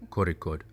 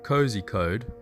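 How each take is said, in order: First: The name is said in the local way. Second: The name is read out as it is spelled. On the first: The speaker knows the local name. The speaker calls it right. "It is Kozhikode" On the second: The speaker is a tourist. The speaker calls it wrong. "which is spelt cozy code, but don't say that because only tourists call it that"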